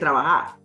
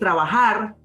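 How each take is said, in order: First: The j sound is weak and barely heard. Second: The j sound is strong and clearly heard. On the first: "como que no se nota" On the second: "En vez de decir trabajar"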